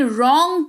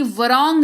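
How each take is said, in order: First: रॉन्ग starting straight on the R, "rong"; silent W. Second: Wrong with a voiced V sound before the R, "v-rong"; wrongly sounded W. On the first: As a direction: say रॉन्ग as "rong", no V sound in front. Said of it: "wrong नहीं". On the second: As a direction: say wrong slowly as "vuh-rong", sounding the silent W. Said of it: "रॉन्ग पढ़ेंगे". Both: Shown as a demonstration.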